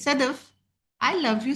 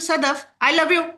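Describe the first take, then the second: First: The sentence is said in a warm, loving tone. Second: The sentence is said in a cold, unkind tone. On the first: The listener feels cared for. "First was something good for me" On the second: The listener feels something is wrong. "Second was not good for me"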